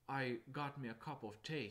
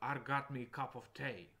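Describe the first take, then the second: First: It is said in a plain, neutral accent. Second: It is said in a thick Scottish accent. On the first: "instead of saying" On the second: "that's really really thick Scottish accent"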